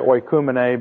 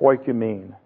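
First: The word has a Greek pronunciation. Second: The word has an English pronunciation. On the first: "New Testament scholars say oikumene because that's the Greek pronunciation" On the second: "If you look it up in an English dictionary, it'll say"

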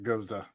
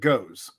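First: The word has two syllables, ending in 'uh'. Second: The word has one syllable, with no final vowel. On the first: The speaker calls it wrong. "Some people pronounce it Goza" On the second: The speaker calls it right. "I pronounce it Goes, as is phonetically correct"

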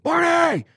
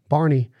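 First: The name is called out with strong energetic inflection. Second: The name is said flatly, without much energy. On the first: The speaker calls it right. "You got to go" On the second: The speaker calls it wrong. "You don't send your dog on a long retrieve and just go"

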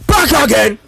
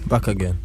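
First: It is said loudly with lots of energy. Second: It is said flatly with little energy.

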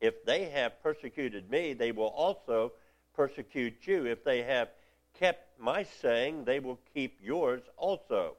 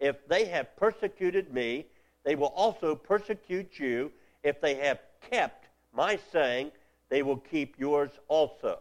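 No difference in how they are said.

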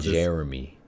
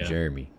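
First: The name is said in a neutral accent. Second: The name is said with a Southern twang. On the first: "You don't say Jeremy" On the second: "you definitely say it with a southern twang"

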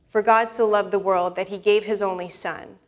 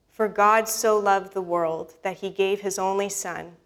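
First: It is read at a normal pace. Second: It is read more slowly.

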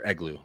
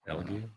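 First: The G sound comes before the L sound. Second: The L sound comes before the G sound. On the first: The speaker calls it right. "Or Eglu, sorry" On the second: The speaker calls it wrong. "This is me reading it in my brain"

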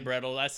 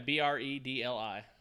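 First: The name ends with an 'uls' sound. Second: The name ends with a 'lie' sound. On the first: "I say brettles. I switch it up" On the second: "Is it one word? Yeah, Bredli"

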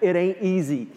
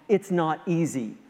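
First: It is said in an Alabama accent. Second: It is said in a plain accent.

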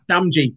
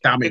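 First: The name is said as two parts, 'damn gee'. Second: The name is said like the word 'damage'. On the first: The speaker calls it wrong. "Damn G, but it's pronounced Damage" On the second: The speaker calls it right. "it's pronounced Damage"

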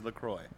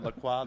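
First: The word is given an English pronunciation. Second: The word is given a French pronunciation. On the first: The speaker calls it right. "if you ask the company... It is LaCroix" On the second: The speaker calls it wrong. "It is not LaCroix. That is how the French would say it"

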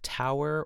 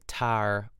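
First: It is said with a standard diphthong. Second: It is said the Pittsburgh way, like tar.

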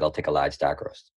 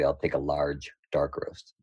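First: The sentence is said fast and run together. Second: The sentence is said carefully and clearly. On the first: "But I said it fast" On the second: "pronounced properly"

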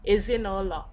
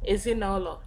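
First: One vowel is dropped between the words. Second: The same.

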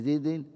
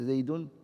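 First: The word ends with an added -in. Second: The word ends with an added -un.

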